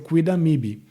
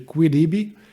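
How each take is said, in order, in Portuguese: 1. O M é pronunciado, acrescentando uma sílaba extra. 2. O M final é omitido e as vogais se fundem. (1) "vai ser o quidamibi" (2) "Em vez de quiribi"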